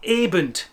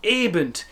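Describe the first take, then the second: The two takes are said the same way.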